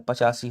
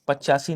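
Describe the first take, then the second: First: "पचासी" said pa-chaa-see, with one short ch; single ch. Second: "पचासी" said pach-chaa-see, with a long ch; doubled ch. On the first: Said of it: "पचासी होता है". ("पचासी" में च इकहरा, प-चा-सी) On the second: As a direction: hold the ch in "पचासी" as a double consonant. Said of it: "पचासी नहीं होता है". ("पचासी" को "पच्चासी" जैसा गलत बोलें) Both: Shown as a demonstration.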